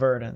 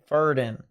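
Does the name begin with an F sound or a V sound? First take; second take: V; F. First: The first sound is a V. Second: The first sound is an F. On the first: The speaker calls it wrong. "instead of Verdin" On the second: The speaker calls it right. "Most V's are pronounced as an F, so it's Verdin"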